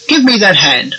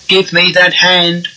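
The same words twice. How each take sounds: First: It is said with a varied, lively pitch. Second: It is said in a flat, mechanical monotone. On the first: It helps the client come out of hypnosis. The speaker calls it right. "I'm varying the tone of my voice" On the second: It makes the client more hypnotised. The speaker calls it wrong. "you will sound like a Dalek"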